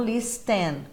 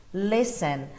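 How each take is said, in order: First: Listen said with the T sounded, lis-ten with a clear T; wrong listen with a T; wrong pronunciation. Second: Listen said with a silent T, lissen; right silent-T listen; correct pronunciation. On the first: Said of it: "não listen". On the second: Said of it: "A pronúncia dele é listen". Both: Shown as a demonstration.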